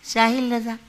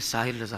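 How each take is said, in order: First: The voice is thin and high like a child's. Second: The voice is deeper like a grown man's. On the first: The speaker still sounds like a small child. The speaker calls it wrong. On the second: The speaker sounds like a grown adult. The speaker calls it right.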